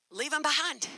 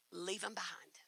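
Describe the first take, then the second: First: Said in the usual way. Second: Hushed resolve; whispered. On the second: Retold or imitated. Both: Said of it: "Leave 'em behind".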